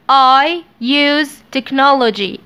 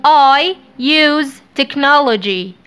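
First: Said in the usual way. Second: I use technology drawn out slowly; slow, clear model sentence; slow dictation. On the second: Shown as a demonstration. (نطق بطيء)

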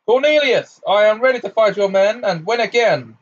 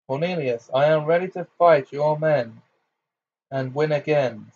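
First: Much louder, higher booming declaration; thunderous voice. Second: Said in the usual way. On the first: Acted. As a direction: thunder it at him. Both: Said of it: "in a thunderous voice".

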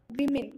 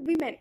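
First: വിമിൻ said with a short i in both syllables; correct pronunciation. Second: വിമൻ said loosely with an e in the second syllable; casual pronunciation. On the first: Teacher to students, the correct way: careful വിമിൻ. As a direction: say വിമിൻ carefully, wi-min, not wi-men. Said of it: "correct pronunciation വിമിൻ ആണ്". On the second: Teacher to students, the everyday slang way: loose വിമൻ. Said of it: "normal സ്ലാങ്ങിൽ pronounce ചെയ്യുമ്പോൾ വിമൻ". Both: Shown as a demonstration.

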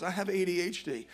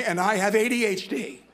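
First: Said in the usual way. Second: Louder and higher, stressed "A D H D" as a confession; mock confession to the group. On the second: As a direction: confess "A D H D" like at a support meeting. Mock support-group introduction.

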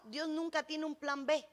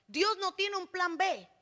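First: Said in the usual way. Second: "Dios no tiene un plan B" declared slowly, word by word; slow down and proclaim "Dios no tiene un plan B" firmly; emphatic restatement. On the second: Real, not acted. Preacher driving home "Dios no tiene un plan B", slow emphatic declaration.

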